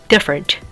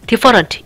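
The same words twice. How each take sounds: First: The unstressed middle vowel is weak and reduced. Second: The unstressed middle vowel is a full vowel. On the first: The speaker calls it right. "힘 빼고 different" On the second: The speaker calls it wrong. "어로 발음하면은 different, different 이게 아니라"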